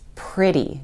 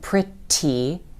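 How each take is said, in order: First: The middle consonant is a soft D sound. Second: The middle consonant is a clear T sound. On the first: The speaker calls it right. "it's pretty. Do you hear that D sound?" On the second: The speaker calls it wrong. "isn't pretty"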